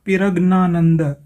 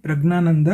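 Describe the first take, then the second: First: The name is read letter by letter, starting 'pira'. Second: The name is said smoothly, starting 'pra'. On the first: It follows the written Tamil spelling. "ये बन गया पिरग्नानंद" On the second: It is how the name is actually pronounced. "इसका उच्चारण ये करेंगे प्रज्ञानंद"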